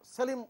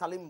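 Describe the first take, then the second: First: The name's first vowel sounds like 'e'. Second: The name's first vowel sounds like 'a'. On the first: This is how people here say the name. "আমরা যেহেতু সেলিম উচ্চারণ করছি" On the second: This is how people in Pakistan say the name. "Ahmed সালিম বলে ওরা"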